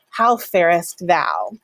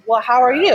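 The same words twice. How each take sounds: First: Slow, stately "How farest thou"; Elizabethan formal. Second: Bright, higher, louder casual "how are you"; modern casual ask. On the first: Teacher playing an Elizabethan asking after someone. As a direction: ask it with old formality, slowly. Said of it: "an Elizabethan person to ask". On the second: Teacher playing a modern person asking how you are. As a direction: ask it breezily like today. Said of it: "a modern person might ask". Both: Shown as a demonstration.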